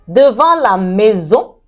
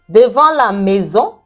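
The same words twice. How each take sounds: Both takes have the same delivery.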